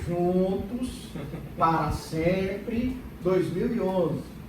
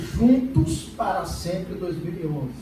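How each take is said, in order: First: The phrase is said slowly and deliberately. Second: The phrase is said at a normal speed.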